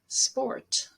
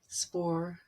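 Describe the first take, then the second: First: The final consonant sound is clearly pronounced. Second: The final consonant sound is left off. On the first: The speaker calls it right. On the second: The speaker calls it wrong.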